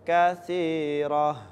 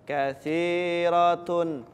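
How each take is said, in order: First: The word ends with a breathy 'h' sound. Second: The word ends with a 'tun' syllable. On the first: The reader stops on this word. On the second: The reading continues without stopping.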